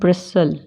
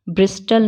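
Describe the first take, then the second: First: The t sound is silent. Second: The t sound is pronounced. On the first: The speaker calls it right. "क्या बोलते हैं?" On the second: The speaker calls it wrong. "ब्रिस्टल नहीं बोलते"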